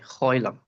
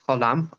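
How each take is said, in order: First: The first vowel is an oi sound. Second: The first vowel is a plain o sound. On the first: "others make more of an oi" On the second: "some people pronounce it as o"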